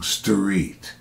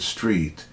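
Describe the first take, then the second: First: It is said with an added syllable. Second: It is said as one syllable. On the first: The speaker calls it wrong. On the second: The speaker calls it right.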